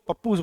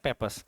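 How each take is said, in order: First: The word sounds like 'pap-poos' with a long u. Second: The word sounds like 'pep-us' with a short u. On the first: The speaker calls it wrong. "पप्पूस बोलते हैं, नहीं" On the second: The speaker calls it right. "Pronunciation है पेपस"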